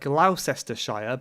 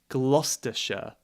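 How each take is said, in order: First: It is pronounced letter by letter, as written. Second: It is pronounced with some written letters dropped. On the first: This is how the spelling looks. The speaker calls it wrong. "This one looks like Gloucestershire" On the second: This is how people actually say it. The speaker calls it right. "but we say Gloucestershire"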